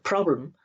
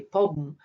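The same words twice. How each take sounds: First: The consonant clusters are fully pronounced. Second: The consonant clusters are simplified to single consonants. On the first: This is the intended adult form. "instead of" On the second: This is how young children say it. "they have a tendency to reduce uh, the the cluster of uh, consonants"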